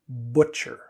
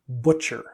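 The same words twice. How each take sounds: First: The first vowel is rounded with rounded lips. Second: The same.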